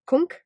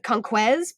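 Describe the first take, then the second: First: The final consonant sound is left silent. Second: The final consonant sound is pronounced. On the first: The speaker calls it right. "but it's" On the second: The speaker calls it wrong. "which looks like"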